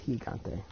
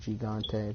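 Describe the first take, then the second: First: It is pronounced with Spanish sounds. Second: It is pronounced with English sounds. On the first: "the proper Spanish pronunciation is El Gigante" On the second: "I know that's spelled Gigante or Gigante"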